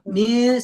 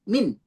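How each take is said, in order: First: The n is softened with the tongue lowered. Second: The n is fully closed with the tongue. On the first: "mil segini dia turunin dikit" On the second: "min gitu kan nempel"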